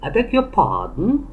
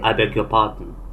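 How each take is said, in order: First: The intonation moves up and down expressively. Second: The intonation stays flat and monotone. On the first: The speaker calls it right. "I want you to play with the intonation. ... just like me" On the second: The speaker calls it wrong. "Don't say"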